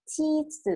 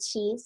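First: First ชีส as Japanese "chiizu", with an added final zu; Japanese-style English. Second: Said in the usual way. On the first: Shown as a demonstration. Teacher decodes the first vocabulary word, Japanese-style pronunciation. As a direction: say ชีส the katakana way, ending in a short vowel. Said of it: "ภาษาอังกฤษแบบญี่ปุ่น". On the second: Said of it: "ก็คือ ชีส".

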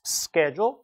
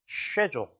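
First: Schedule as "SKEH-jol", rising; American pronunciation. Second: Schedule as "SHEH-jol", falling; British pronunciation. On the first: Teacher contrasting for students, American schedule with "sk". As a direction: start schedule with hard sk. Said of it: "sh-, 어, s". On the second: Teacher contrasting for students, British schedule with "sh". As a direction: start schedule with soft sh. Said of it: "이렇게 발음되고요". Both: Shown as a demonstration.

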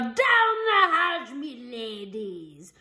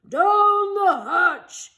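First: Slow bellowed pirate toast. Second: Loud slow crew chorus; crew shout. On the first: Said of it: "pounded his fist on the table and yelled". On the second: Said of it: "we all shouted". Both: A narrator's reading.

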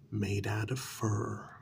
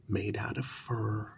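Both takes have the same delivery.

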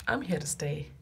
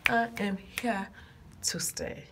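First: Said in the usual way. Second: "I am here to stay" word by word, with a pause before "to"; emphatic vow. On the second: Real, not acted. Vlogger promising viewers, "I am here to stay" in emphatic separate words. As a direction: spell out "I am here to stay" firmly, in separate beats.

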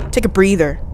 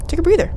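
First: Said in the usual way. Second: Quick, high-pitched echo; high repeat. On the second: Real, not acted. Player telling self to rest, high little echo.

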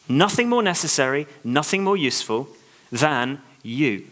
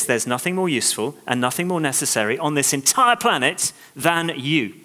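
First: "Nothing more necessary" restated, each phrase leaned on; stressed slow repeat. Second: Sincere declaration. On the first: Shown as a demonstration. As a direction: repeat it slowly, landing on "you". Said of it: "repeats to drive it home". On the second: Retold or imitated. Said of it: "is saying this".

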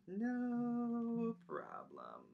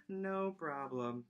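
First: No problem stretched long and higher; slow, sly, smug No problem; drawn-out teasing. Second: Said in the usual way. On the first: Acted. Teacher teasing kids with a slow smug No problem.

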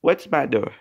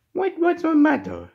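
First: Said in the usual way. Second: High, squeaky pretend question; high-voiced concern. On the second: Toy character asks what's wrong, high-voiced concern. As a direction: ask it far up in pitch. Asking upset character, first take.

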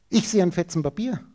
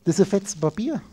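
First: "Ich" lifted with a rising tune, a personal view; stress on ich. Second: "ist" lifted with a rising tune, stating a fact; stress on ist. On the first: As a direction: lean on "Ich" as one's own seeing. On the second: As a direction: lean on "ist" as a plain fact. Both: Shown as a demonstration.

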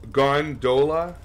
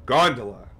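First: Gondola as gon-DOH-luh, slow and questioning; wrong-syllable emphasis. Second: Gondola as GON-duh-luh, falling; first-syllable stress. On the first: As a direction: stretch gondola with a long middle O. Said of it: "You put the wrong emphasis". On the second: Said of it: "I pronounce it the right way". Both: Shown as a demonstration.

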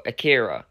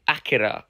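First: Akira stressed on the middle syllable, uh-KEER-uh; pronunciation variant. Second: Akira stressed on the first syllable, AK-uh-ruh; pronunciation variant. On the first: Offering viewers the alternative title, Akira stressed in the middle. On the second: Offering viewers a film title's pronunciation, Akira stressed up front. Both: Shown as a demonstration. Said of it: "I think it's pronounced Akira".

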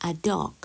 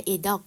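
First: "a" in "a dog" said as a short "uh"; article as "uh". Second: "a" in "a dog" said like the letter name "ay"; article as letter A. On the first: Teacher showing Thai learners the common reading, "a" said as "uh". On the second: Teacher showing learners the alternative reading, "a" said as "ay". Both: Shown as a demonstration. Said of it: "ออกเสียงเป็นอะมากกว่า A".

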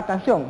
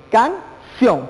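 First: Said in the usual way. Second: "canción" in two beats, can - ción; syllable split. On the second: Shown as a demonstration. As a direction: separate "canción" with a pause after "can". ("canción" separada: can, pausa, ción) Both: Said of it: "Separemos la palabra canción".

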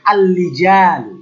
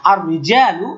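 First: Slow আল লিজালু with a held l in place of r; wrong l sound. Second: আর রিজালু with a rolled r at the start; correct ar-rijalu. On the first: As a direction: drag out আল লিজালু as the error to avoid. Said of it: "এটা বলা যাবে না". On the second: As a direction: say আর রিজালু with r, never l. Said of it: "এই যে এটা হলো সহি". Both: Shown as a demonstration.

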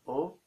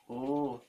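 First: "o" cut short; a brief, single "o"; short vowel. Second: "oo" held out; long vowel. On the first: Teacher contrasting short with long, short vowel. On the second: Teacher contrasting long with short, long vowel. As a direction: stretch the "oo". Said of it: "and long". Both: Shown as a demonstration.

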